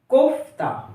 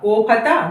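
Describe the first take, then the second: First: The consonants join with no vowel between them. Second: A vowel is heard between the joined consonants. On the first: The speaker calls it right. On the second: The speaker calls it wrong.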